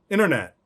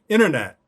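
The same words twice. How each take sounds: Both takes have the same delivery.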